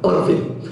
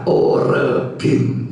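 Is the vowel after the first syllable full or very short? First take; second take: very short; full. First: The vowel after the first syllable is very short. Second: The vowel after the first syllable is full. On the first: The speaker calls it right. "Orbim pendek sekali" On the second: The speaker calls it wrong. "Jangan dibaca orbim ya"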